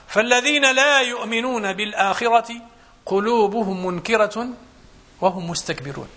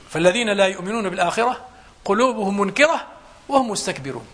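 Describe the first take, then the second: First: Slow, measured chant with long held words; slow Quranic recitation. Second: Said in the usual way. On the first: Acted. Preacher quotes the verse to his congregation, slowly intoned. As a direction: recite the verse, drawing each word out. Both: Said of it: "قال الله سبحانه وتعالى".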